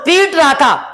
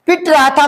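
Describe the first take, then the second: First: "पीट" with a long, held ee; long vowel. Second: "पिट" with a short i; short vowel. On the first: Teacher shows the difference to students, long ee in "पीट". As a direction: draw out the ee in "पीट". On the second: Teacher shows the difference to students, short i in "पिट". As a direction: close "पिट" quickly on the T. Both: Shown as a demonstration. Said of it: "फर्क पड़ रहा है कि नहीं".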